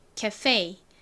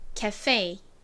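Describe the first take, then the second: First: It is said with American English pronunciation. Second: The same.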